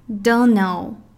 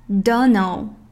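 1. 这些词连在一起，发音含糊，而且变短了。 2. 这些词连在一起，发音含糊，而且变短了。

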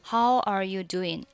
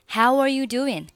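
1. how中的元音较弱，没有w滑音。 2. how中的元音饱满，带有w滑音。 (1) "如果你是how are you doing, how are you doing，那这个你肯定是找不到这个感觉的" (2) "如果你把how 发音饱满一点的话呢，你会很自然的就找到了w 这个音"

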